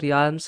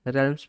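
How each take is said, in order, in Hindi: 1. A का उच्चारण होता है, जिससे ree-alms बनता है। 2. A साइलेंट है, जिससे relms बनता है। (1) "इसको रियाल्म्स नहीं पढ़ते" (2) "इसमें ए साइलेंट होता है, रेलम्स पढ़ते हैं"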